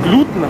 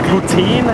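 First: The E is very short, almost silent. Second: The E is long and drawn out. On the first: "das E also beinahe stumm, nur so ganz kurz ausgesprochen" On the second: "also mit lange gedehntem E"

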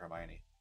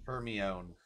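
First: The name is said the usual, familiar way. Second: The name is sounded out letter by letter. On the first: The speaker calls it right. "that's how you say it?" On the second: The speaker calls it wrong. "I thought her name was Hermione"

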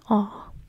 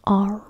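First: It is said in a non-rhotic British accent. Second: It is said in a rhotic American accent.

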